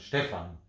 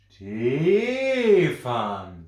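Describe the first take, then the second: First: The pitch starts high and falls at the end. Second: The pitch starts low and rises at the end. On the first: The speaker calls it right. "Also geht es am Anfang immer hoch" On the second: The speaker calls it wrong. "Keiner sagt"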